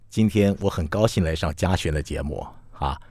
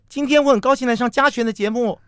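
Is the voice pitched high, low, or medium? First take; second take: low; high. First: It is spoken at a low pitch. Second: It is spoken at a high pitch.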